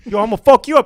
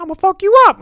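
First: Raised, loud comic threat; mock threat. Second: Very high, loud parrot squawk; mimicking parrot. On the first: Brother fed up with the parrot, mock angry threat. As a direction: act out losing it with a pet. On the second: Parrot copying the brother's threat, high mimic squawk. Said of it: "Paris be like".

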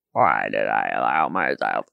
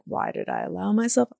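First: "Why did I allow myself?" dropped far lower in pitch; much lower repeat. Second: Said in the usual way. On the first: Retold or imitated. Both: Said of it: "I was like".

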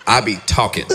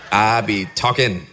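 First: Said in the usual way. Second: "I be talking" said through a laugh. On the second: Shown as a demonstration. Admitting how he talks in private, laughing. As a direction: chuckle as you repeat "I be talking".

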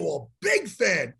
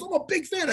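First: Low, slow, drawn-out repeat; knowing echo. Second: Higher-pitched quick fan gush; eager fan. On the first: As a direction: stretch the words out, pitched down. Echoes the fan's words slowly. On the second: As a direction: introduce yourself as an admirer. Fan's line, then echoed back. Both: Retold or imitated.

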